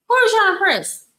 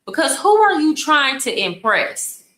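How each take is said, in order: First: Much higher and exasperated, stress on "are"; incredulous repeat. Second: Said in the usual way. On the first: Shown as a demonstration. Host repeats it to the bragging men, incredulous. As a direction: throw "are" up high in disbelief.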